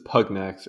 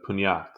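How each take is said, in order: First: The g and n are pronounced separately. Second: The g and n merge into a ny sound. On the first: "I hope this is pugnax" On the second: "not like an Italian thing like pugnax"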